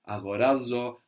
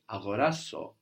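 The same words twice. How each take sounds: First: The consonant before the last vowel is a Z. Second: The consonant before the last vowel is an S. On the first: This is the plain form of the verb. "When the verb is by itself, not introduced by tha, na, an, we just have agorazo" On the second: This is the closed, alternative form of the verb. "we change the Z to an S and we get agorazo"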